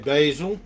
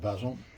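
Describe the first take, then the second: First: It is said in an American accent. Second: It is said in the speaker's British accent.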